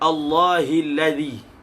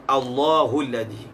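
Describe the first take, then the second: First: The vowel after Allah is i. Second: The vowel after Allah is u. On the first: This is the majority reading, with Allah in the genitive. "Jumhur membaca dengan Allahilladzi" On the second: This is a minority reading, with Allah as the subject. "Qiraat yang membaca dengan marfu'"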